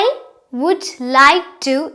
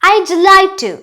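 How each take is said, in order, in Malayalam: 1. would എന്ന വാക്ക് പൂർണ്ണമായി പറയുന്നു. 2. would എന്ന വാക്ക് d ആയി ചുരുങ്ങുന്നു.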